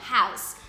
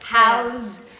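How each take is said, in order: First: The word ends with an s sound. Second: The word ends with a z sound. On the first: It is used as a noun. "o substantivo é com san no final" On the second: It is used as a verb. "Mas o verbo é com zan"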